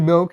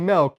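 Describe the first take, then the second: First: The vowel is a short 'i' sound. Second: The vowel sounds like a short 'e'. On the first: The speaker calls it right. "Say milk" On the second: The speaker calls it wrong. "you put an e in that motherfucker"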